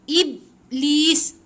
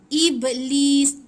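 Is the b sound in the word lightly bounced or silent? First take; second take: silent; bounced. First: The b is held with no bounce. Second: The b has a light, quick bounce. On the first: The speaker calls it wrong. "jangan sampai tak ada bunyi ba tu" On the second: The speaker calls it right. "Ada ba sikit. Sikit je eh. Dia touch and go"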